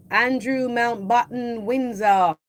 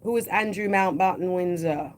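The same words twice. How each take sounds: First: Slow, louder and higher on the full name; dramatic slow reveal. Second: Said in the usual way. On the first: Acted. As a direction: announce each word slowly like a grand reveal.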